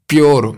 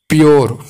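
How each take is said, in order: The two takes are said the same way.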